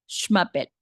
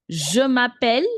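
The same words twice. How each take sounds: First: Je m'appelle shortened to "shmappelle", falling; quick "shma-pell", no vowel in Je; fluent contracted version. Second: Je m'appelle with a full, loud "Je", rising at the end; full beginner version. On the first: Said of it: "this is how you will speak once you're very fluent". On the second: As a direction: sound out all three syllables of Je m'appelle, lifting the last. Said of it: "But to begin with, you can say". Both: Shown as a demonstration.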